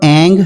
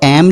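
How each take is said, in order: First: The syllable ends in a nasalized vowel. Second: The syllable ends with a clear m sound. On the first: The mantra becomes more fierce. "ऐं ह्रीं क्लीं ऐसे बोलते हैं तो ये थोड़ा ज़्यादा उग्र हो जाता है" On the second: The mantra becomes more gentle. "जब आप ऐम लगाते हैं"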